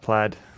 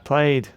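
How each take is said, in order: First: The vowel is short, rhyming with 'mad'. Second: The vowel is long, rhyming with 'made'. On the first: "not plaid" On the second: "there are people that pronounce it played"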